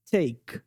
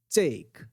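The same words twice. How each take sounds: First: "Take" with weak stress and a trailing vowel; wrong take. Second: "Take" ending on a dry k. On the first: Teacher showing the wrong way. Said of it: "você não vai falar take". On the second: Teacher showing the right ending. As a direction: end "Take" on a crisp k. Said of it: "duas coisas aí que você tá errando". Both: Shown as a demonstration.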